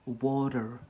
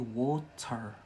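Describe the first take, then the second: First: The word is said in an American accent. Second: The word is said in a Scottish accent. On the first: "in America, they say water" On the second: "here in Scotland we say water"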